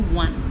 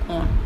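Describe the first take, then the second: First: It is said like the number 'won'. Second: It is said like the word 'on'. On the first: The speaker calls it wrong. "we will not pronounce it as one" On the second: The speaker calls it right. "we will pronounce it as on"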